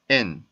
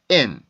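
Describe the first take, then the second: First: The syllable is short and said softly. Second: The syllable is said with more force. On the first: The syllable is unstressed. "조금 짧게 끊어지는 것 뿐이에요" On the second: The syllable is stressed. "조금 더 세게"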